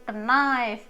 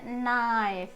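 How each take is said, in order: First: The word starts with a pronounced k sound. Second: The word starts with an n sound, k silent. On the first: The speaker calls it wrong. "bukan knife gitu, jangan ya" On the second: The speaker calls it right. "dibaca knife gitu"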